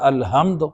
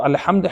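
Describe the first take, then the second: First: الحمد with a plain h for ح; الحمد without the throaty Arabic ح; mispronounced ح. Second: الحمد with ح from the throat; careful Arabic pharyngeal ح in الحمد; correct throat ح. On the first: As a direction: say الحمد wrongly, ح softened to ہ. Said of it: "حمد کا مطلب ہے علیہ باللہ تمام ہلاکتیں". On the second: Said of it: "حق حلق کے ساتھ صحیح تلفظ". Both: Shown as a demonstration.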